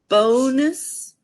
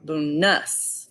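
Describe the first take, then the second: First: The stress is on the first syllable. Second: The stress is on the second syllable. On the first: "accenting the first" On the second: "or the second syllable"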